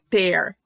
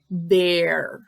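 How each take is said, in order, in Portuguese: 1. A palavra começa com um T forte. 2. A palavra começa com um som suave, parecido com D. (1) "não é ter" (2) "esse T H E também fica com som de D"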